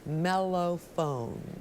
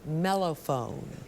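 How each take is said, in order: First: The word is said slowly. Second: The word is said at normal speed.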